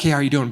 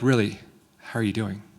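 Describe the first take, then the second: First: It sounds like a quick, casual greeting. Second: It sounds like a genuine, caring question.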